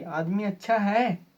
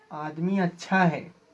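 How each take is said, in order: First: "आदमी अच्छा है" asked as a question, voice lifted on "है"; questioning tune. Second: "आदमी अच्छा है" as a slow statement, falling at the end; falling statement tune. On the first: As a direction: ask "आदमी अच्छा है" with a questioning lift at the end. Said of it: "question mark है". (प्रश्न के लहजे में "आदमी अच्छा है?") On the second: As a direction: state "आदमी अच्छा है" slowly, letting "है" drop. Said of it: "कभी अप डाउन देखने को मिलेगा". (कथन के लहजे में "आदमी अच्छा है", अंत में सुर नीचे) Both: Shown as a demonstration.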